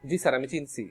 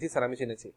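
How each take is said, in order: First: The verb is said in a clipped colloquial form. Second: The verb is said in its full standard form. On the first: It sounds casual, like talking with friends. The speaker calls it wrong. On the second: It sounds formal and proper. The speaker calls it right.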